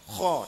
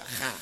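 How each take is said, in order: First: The vowel is thick and rounded, like o. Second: The vowel is thin and open, like a. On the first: The speaker calls it right. "huruf yang tafkhim itu fathahnya jadi o" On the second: The speaker calls it wrong. "tidak kha"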